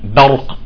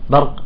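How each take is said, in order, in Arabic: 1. الـ b يُنطق بقوة وجهر قوي. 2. الـ b يُنطق بضعف من أطراف الشفتين. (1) "بدك شدة وجهر" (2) "هيك من طرف شفايفك، لا"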